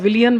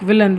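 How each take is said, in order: First: The word is said with three syllables. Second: The word is said with two syllables. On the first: The speaker calls it wrong. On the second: The speaker calls it right.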